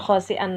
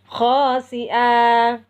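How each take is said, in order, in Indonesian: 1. Kata ini berakhir dengan bunyi n. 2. Kata ini berakhir dengan vokal a panjang. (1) "bukan khasi'an lagi" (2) "tapi khasi'a"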